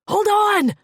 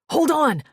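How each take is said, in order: First: High, very loud desperate yell. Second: Big urgent roar. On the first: Maddock yelling again as Fleck slips down. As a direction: yell it even harder the second time. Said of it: "he yelled again". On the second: Maddock roaring at Fleck to hold on. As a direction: roar it out over the danger. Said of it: "he roared". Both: A narrator's reading.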